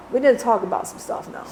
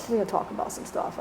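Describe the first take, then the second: First: Said in the usual way. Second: Whispered insistence; whispered repeat. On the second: Retold or imitated. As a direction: drop to a hushed whisper. Father's demand repeated, whispered.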